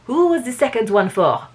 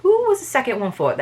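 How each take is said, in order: First: Put-on light French accent, a little higher; improved French accent. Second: Badly faked French accent, higher pitched; failed French accent. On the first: Reader getting the detective's question right, improved French accent. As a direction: land the French accent more surely. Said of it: "There we go". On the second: Reader retrying the detective's question, failed French accent. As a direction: try a French accent and miss. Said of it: "I can't do a French accent".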